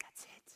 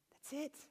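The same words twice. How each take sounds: First: Barely audible awed whisper; hushed realization. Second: Soft, high-pitched voiced wonder; dawning realization. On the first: Retold or imitated. Speaker grasps his friend's metaphor, hushed whisper. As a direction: breathe it out as it dawns on you. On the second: Speaker grasps his friend's metaphor, soft high realization. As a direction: say it softly, higher, as it clicks.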